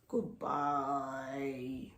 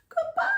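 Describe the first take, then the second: First: It is said in a very low voice. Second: It is said in a very high voice.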